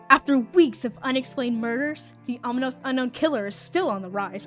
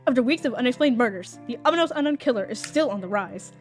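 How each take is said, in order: First: It is read in his plain voice. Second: It is read in a news-reporter voice.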